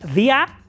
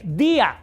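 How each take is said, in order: First: The i is unstressed, gliding into the a. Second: The i is stressed, forming its own syllable.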